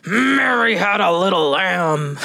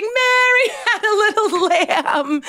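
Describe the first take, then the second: First: Slow, growled-out pretend anger; hammed-up angry recital; mock angry. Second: Very high, laughing recital; hammed-up giggly high voice. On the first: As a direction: play at being angry, dragging the words. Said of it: "try it like you're angry". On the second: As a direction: laugh your way through the line. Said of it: "Try it like you're laughing".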